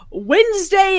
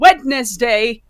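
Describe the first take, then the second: First: It is said the usual way, with a silent d. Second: It is said as spelled, with the d sounded.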